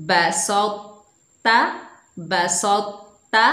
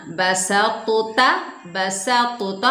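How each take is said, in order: First: बसौता read as one smooth word, the heavy t kept thick, no stop or bounce, slow; smooth joined reading. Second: बसा तोता split in two with a stop and a bounce on तो, slow; wrong split reading. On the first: Teacher reads the correct form smoothly for pupils. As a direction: glide बसौता together with the t held heavy. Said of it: "एक मरतबा फिर हम रवां से पढ़ते हैं". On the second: Teacher shows pupils the wrong reading, slow and split. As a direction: break बसा off before तोता, the way not to read it. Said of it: "तो हमने ऐसे नहीं पढ़ना". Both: Shown as a demonstration.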